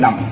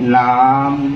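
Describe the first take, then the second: First: The tone is short and not drawn out. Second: The tone is drawn out and long. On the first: This is how the speaker's own group says water. "আমি কয় নাম" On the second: This is how some Tai groups say water. "টিউনটো অকণমান লম্বা"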